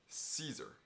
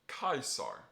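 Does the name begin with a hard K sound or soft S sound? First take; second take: soft S; hard K. First: It begins with a soft S sound. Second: It begins with a hard K sound. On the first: This is the usual English way. "In English, we call him" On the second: This is the classical Latin way. "with a hard C"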